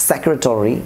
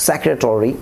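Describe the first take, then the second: Both takes have the same delivery.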